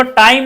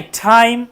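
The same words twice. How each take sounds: First: टाइम with a hard ट, no puff of air; the wrong take of टाइम, dry T; unaspirated Indian T. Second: टाइम with a puff of air, like ठ; strongly breathed T opening टाइम; aspirated English T. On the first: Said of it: "अब बोलो टाइम नहीं". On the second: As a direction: model टाइम as "thaim". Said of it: "ये ठ पढ़ने का". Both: Shown as a demonstration.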